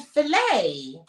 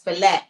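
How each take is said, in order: First: It ends without a T sound. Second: It ends with a clear T sound. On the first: The speaker calls it right. "you don't pronounce the T" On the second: The speaker calls it wrong. "It has a T at the end"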